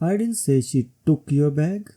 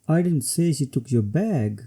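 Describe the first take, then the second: First: The word took is stressed. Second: The word bag is stressed. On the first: Maybe she borrowed it. "When emphasis is on took" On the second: Maybe she took something else. "Here the emphasis is on bag"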